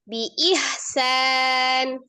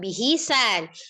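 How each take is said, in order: First: The h has no vowel after it. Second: The h is followed by an i vowel. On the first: The speaker calls it right. "haknya sukun" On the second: The speaker calls it wrong.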